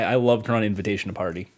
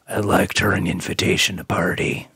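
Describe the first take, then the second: First: It is said in the speaker's normal voice. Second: It is said in a noticeably deeper voice.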